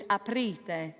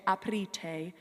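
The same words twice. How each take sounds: First: Aprite, dry dental T; right aprite. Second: Aprite with a wet, aspirated T; aprite, wrong wet T. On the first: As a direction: say aprite, T nearly a D. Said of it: "Almost like a D". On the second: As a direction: say aprite with a breathy English T. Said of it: "never to have a wet T". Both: Shown as a demonstration.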